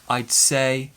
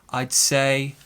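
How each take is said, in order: No difference in how they are said.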